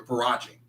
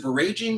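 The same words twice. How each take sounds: First: "barraging" with middle syllable said like "rah"; alternative pronunciation. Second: "barraging" with middle syllable said like "ray"; questioned pronunciation. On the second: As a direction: say "barraging" to rhyme with "raging". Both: Shown as a demonstration. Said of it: "I didn't know how it was pronounced".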